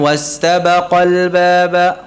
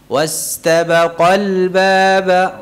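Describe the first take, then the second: First: It is read plainly without a pressed syllable. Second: It is read with a pressed, emphasized syllable. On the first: The speaker calls it wrong. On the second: The speaker calls it right.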